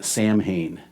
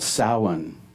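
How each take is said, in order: First: It is said the way the spelling looks. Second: It is said the traditional way, not as spelled. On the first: "it looks like Samhain" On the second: "It's called Samhain, but it's pronounced"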